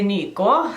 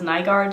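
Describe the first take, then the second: First: The name is said with Norwegian pronunciation. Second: The name is said with anglicized pronunciation. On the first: This is how Norwegians would say the name. "in Norwegian, it's a very Norwegian name, so we would say" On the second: This is how the name's owner says it. "Sofia herself says"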